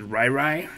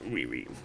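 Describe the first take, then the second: First: The vowels sound like 'eye', as in rye. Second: The vowels sound like 'ee', as in Rihanna. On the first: This is how some other people say it. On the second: This is the speaker's own pronunciation.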